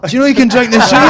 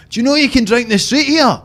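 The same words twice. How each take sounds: First: High, loud, fast mock Glasgow accent, laughing; excited Glaswegian mimic. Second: High, loud mock Glasgow tourist accent; Glaswegian mimic. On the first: Mimicking Glasgow visitors again, louder and faster in a laughing Glaswegian accent. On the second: Mimicking people from Glasgow marvelling at Edinburgh in a high Glaswegian accent. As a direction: ham up a Glasgow visitor's amazement, pitched high. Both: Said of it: "you'll just hear them going like".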